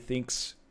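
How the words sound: It is said in a New Zealand accent. "New Zealand's like yeah, thanks"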